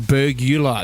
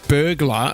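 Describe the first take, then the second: First: The word is said with three syllables. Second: The word is said with two syllables. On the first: The speaker calls it wrong. "There's no three syllables" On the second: The speaker calls it right. "There's no three syllables in burglar"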